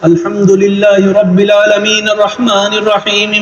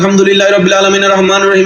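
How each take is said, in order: First: The words are recited somewhat slowly. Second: The words are recited very quickly. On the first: "একটু স্লো কইরা পড়ো" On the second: "তারাবির হাফেজদের জবানের মধ্যে শোনা যায়"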